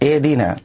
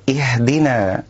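First: The h is cut short and barely heard. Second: The h is breathy and relaxed, without strain. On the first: The speaker calls it wrong. "يبتر الهاء" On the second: The speaker calls it right. "نأتي بالهاء بلا تكلف"

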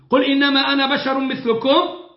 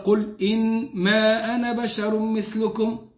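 First: It is said as a rhetorical question. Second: It is said as a plain statement. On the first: It asks in disbelief whether he is human. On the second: It denies something outright.

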